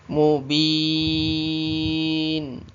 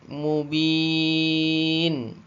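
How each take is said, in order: No difference in how they are said.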